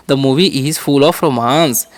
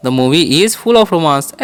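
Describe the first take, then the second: First: "The movie is full of romance" said slowly, stress on movie; slow model. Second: "The movie is full of romance" repeated slowly, stress on full. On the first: Teacher modelling an English sentence slowly. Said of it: "तो कैसे बोलेंगे". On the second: Teacher repeating the model sentence slowly. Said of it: "ऐसे बोल सकते हैं". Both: Shown as a demonstration.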